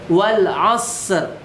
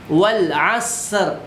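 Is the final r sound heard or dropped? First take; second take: heard; heard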